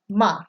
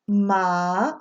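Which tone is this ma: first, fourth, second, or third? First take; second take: fourth; second. First: It is said with the fourth tone. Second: It is said with the second tone. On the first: It means to scold. "You're yelling at someone" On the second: It means hemp. "when you go down the tone list"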